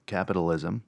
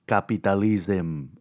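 First: Said in the usual way. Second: "capitalism" said as kah-pee-tah-lism with open ah and ee vowels; accidental accent. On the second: Real, not acted. Host recapping last episode slips into an accent on "capitalism", kah-pee-tah-lism. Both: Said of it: "I don't know why I fucking did the accent".

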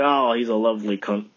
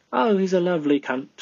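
First: Said in the usual way. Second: Playful mock British accent. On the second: Shown as a demonstration. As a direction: do a jokey British accent, pitched up. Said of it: "That's my British accent".

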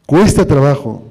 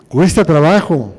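The two takes are said the same way.

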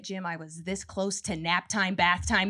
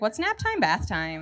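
First: Lower, slower, grumbling mom; a tired mom snapping at her husband; mock snapping mom. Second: Put-on innocent child. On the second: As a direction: ask like a puzzled little kid. Child asking about phrase.

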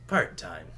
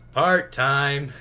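First: Low, understated quip; underplayed hero aside; better trailer take. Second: Loud, higher, drawn-out delivery; hammed-up version of the line; bad film take. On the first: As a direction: toss it off lower, without pushing. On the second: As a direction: belt it out like an overplayed hero quip. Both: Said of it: "it was a way better take".

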